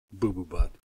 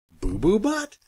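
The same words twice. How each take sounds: First: Silly name. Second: Incredulous squeal. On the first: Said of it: "make silly sounds". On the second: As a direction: BUTT rising, much higher and louder. Reacting to the silly name. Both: Acted.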